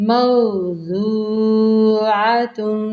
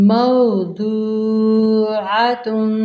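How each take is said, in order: The two takes are said the same way.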